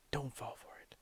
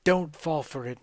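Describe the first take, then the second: First: Much softer unvoiced whisper. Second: Said in the usual way. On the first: Gamer secretly warning Nemo, whispered.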